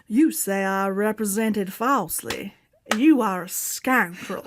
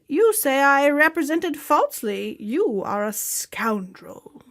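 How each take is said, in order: First: It is said in a Southern drawl. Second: It is said in a neutral accent.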